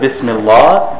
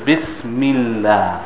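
First: The L sound is heavy and thick. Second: The L sound is light and thin. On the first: The speaker calls it wrong. "Instead of" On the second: The speaker calls it right. "it may be thin because of a kasra before the word Allah"

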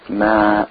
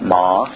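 First: The syllable is thin, with jaws nearly closed. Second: The syllable is full, with jaws open wide. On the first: The speaker calls it right. "when they're thin, you keep the jaws closed" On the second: The speaker calls it wrong. "not ma"

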